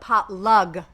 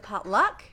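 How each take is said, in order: First: The word ends with a clearly enunciated g sound. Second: The word ends with a k sound.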